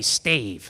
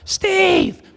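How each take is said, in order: First: The name is called at normal loudness. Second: The name is called a little louder.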